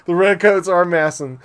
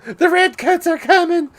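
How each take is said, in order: First: Said in the usual way. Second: High, loud hammy pirate cry. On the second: Acted. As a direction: bellow it like a pirate. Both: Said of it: "using that pirate voice".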